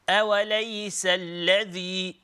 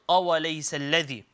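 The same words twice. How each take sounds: First: The opening sound is light and soft. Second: The opening sound is heavy and thick. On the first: The speaker calls it right. "Very uh, soft, very gentle" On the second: The speaker calls it wrong. "and not"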